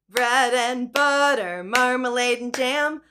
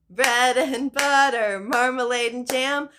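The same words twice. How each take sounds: No difference in how they are said.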